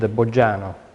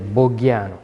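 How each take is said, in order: First: The name is said the Italian way. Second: The name is said the Spanish way.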